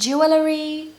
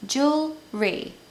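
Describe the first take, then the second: First: It is said with more than two syllables. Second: It is said with just two syllables. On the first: The speaker calls it wrong. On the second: The speaker calls it right. "it's just two syllables"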